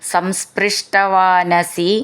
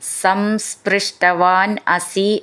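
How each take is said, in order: First: The two words are joined together. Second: The two words are said separately.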